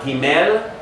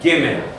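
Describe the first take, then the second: First: The stress is on the second syllable. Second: The stress is on the first syllable. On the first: The speaker calls it wrong. "notice it's not Gimel" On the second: The speaker calls it right. "it's Gimel"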